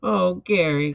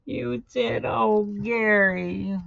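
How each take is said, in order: First: Louder, dismayed exclamation; touch of anguish, pushed louder; mild distressed cry. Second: High, slow, drawn-out lament; stretched, hammed-up cry of remorse; wailing. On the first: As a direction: cry out to your hurt pet, briefly. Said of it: "cried SpongeBob". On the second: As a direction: wail it to your hurt pet. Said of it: "wailed SpongeBob". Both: A narrator's reading.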